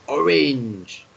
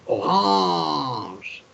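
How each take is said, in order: First: It is pronounced with an English sound. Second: It is pronounced with a French sound. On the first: "The English say orange" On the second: "but the French say orange"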